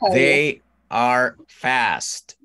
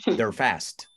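First: They and are are said as two words. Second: They and are merge into one syllable.

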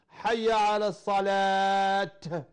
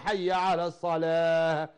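First: The last word ends with a t sound. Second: The last word ends with an h sound. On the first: The speaker calls it wrong. "ينطق الهاء تاء" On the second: The speaker calls it right. "والأصل وقفها على الهاء"

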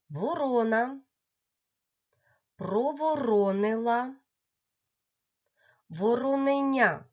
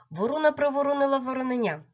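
First: The phrase is said at a slow, careful pace. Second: The phrase is said at the fastest pace.

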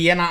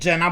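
First: The name is pronounced the Italian way. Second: The name is pronounced in a non-Italian way. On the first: The speaker calls it right. "celowo mówię Jena" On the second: The speaker calls it wrong. "a nie Jena"

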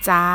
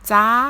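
First: The pitch stays level in the middle. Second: The pitch stays high throughout.

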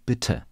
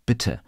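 No difference in how they are said.

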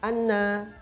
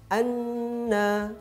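First: The doubled n is clipped very short. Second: The doubled n is held a moderate length. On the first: The speaker calls it wrong. "terlalu cepat" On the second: The speaker calls it right. "tasydid ini menjadi menahan"

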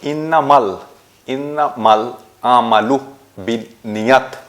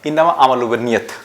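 First: Innama is joined to amalu with an L. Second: Innama runs straight into amalu without an L. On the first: The speaker calls it right. "এটা হচ্ছে সঠিক উচ্চারণ।" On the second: The speaker calls it wrong. "আমরা এটাকে এভাবে পাঠ করে থাকি, ... কিন্তু ওভাবে নয়।"

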